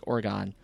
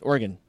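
First: It is said the way outsiders say it. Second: It is said the way local residents say it. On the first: The speaker lives outside the state. "everywhere else is like Oregon" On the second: The speaker lives in the state. "If you live in Oregon, how do you pronounce Oregon?"

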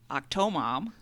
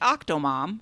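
First: The stress is on the second syllable. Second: The stress is on the first syllable. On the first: The speaker calls it wrong. "it's not octomom" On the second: The speaker calls it right. "like octomom"

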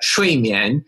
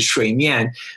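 First: Fourth tone, then second tone. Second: Third tone, then fourth tone. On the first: It means sleep. The speaker calls it right. "that's a fourth tone and then a second tone" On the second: It means water surface. The speaker calls it wrong. "which is a third tone, fourth tone"

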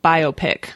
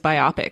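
First: It is pronounced the standard, heard way. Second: It is pronounced as read from the spelling. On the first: The speaker calls it right. "I was also confused about biopic" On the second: The speaker calls it wrong. "I thought it was biopic"

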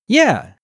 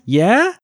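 First: The pitch falls sharply from high to low. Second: The pitch rises steadily from low to high.

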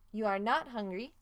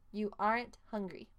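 First: Are not is said as two full words. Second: Are not is contracted into one word.

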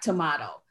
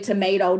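First: The word has an imitated regional pronunciation. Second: The word has the speaker's usual pronunciation. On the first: This is how people in the north say it. "the North would be like tomato" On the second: This is how the speaker's own group says it. "Like we say tomato"

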